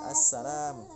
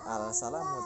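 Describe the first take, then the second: First: The l merges into a doubled s sound. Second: A clear l sound is heard before s. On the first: The speaker calls it right. "tapi assalamu" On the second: The speaker calls it wrong. "bukan al-salamu"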